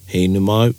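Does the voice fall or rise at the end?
fall. The voice falls at the end.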